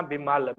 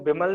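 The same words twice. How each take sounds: First: ਬਿਮਲ said the right way, firmly, with a falling close; correct reading. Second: ਬਿਮਲ read the wrong way, as the preacher warns against. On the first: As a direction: give the corrected ਬਿਮਲ as a model. (ਬਿਮਲ ਦਾ ਸਹੀ ਉਚਾਰਨ) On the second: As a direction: say ਬਿਮਲ as the mistaken reading. (ਬਿਮਲ ਦਾ ਗਲਤ ਉਚਾਰਨ) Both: Shown as a demonstration. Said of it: "ਇਹਨੂੰ ਬਿਮਲ ਨਹੀਂ ਪੜ੍ਹਨਾ".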